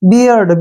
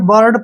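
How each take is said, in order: First: The vowel is an 'ear' sound, like beer. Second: The vowel is an 'ur' sound, like bird. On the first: The speaker calls it right. "इसको पढ़ेंगे हम बियर्ड" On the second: The speaker calls it wrong. "बर्ड पढ़ते हैं, जो कि गलत है"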